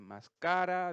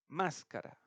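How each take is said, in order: First: The stress is on a later syllable. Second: The stress is on the first syllable. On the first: The speaker calls it wrong. "no dice máscara" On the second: The speaker calls it right. "dice máscara"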